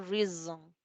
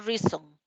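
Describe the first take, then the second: First: The middle consonant is a buzzing z. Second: The middle consonant is a hissing s. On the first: The speaker calls it right. "digo reason" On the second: The speaker calls it wrong. "Vea que no digo reason"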